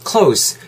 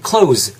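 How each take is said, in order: First: "close" ending in a voiceless s. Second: "close" ending in a voiced z. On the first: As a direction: say "close" to rhyme with "dose". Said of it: "뒤에는 좀 약간 s에 가깝게". (close 끝을 s 발음으로) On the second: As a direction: say "close" as "cloze". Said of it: "뒤에가 z 발음으로 끝나야 돼요". (close 끝을 z 발음으로) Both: Shown as a demonstration.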